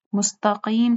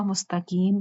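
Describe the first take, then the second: First: First "مستقیم" with back-of-mouth q; correct qaaf. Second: Second "مستقیم" as mustakeem with k; light front k in "مستقیم"; common mispronunciation. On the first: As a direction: say "مستقیم" as mustaqeem. ("مستقیم" موٹے قاف سے) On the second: ("مستقیم" کاف سے، مستکیم) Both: Shown as a demonstration. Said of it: "مستقیم کو مستقیم پڑھتے ہیں".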